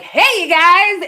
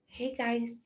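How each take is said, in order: First: It is said loudly and powerfully. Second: It is said quietly and meekly.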